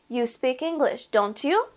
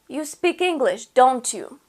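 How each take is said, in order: First: The pitch rises at the end. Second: The pitch falls at the end.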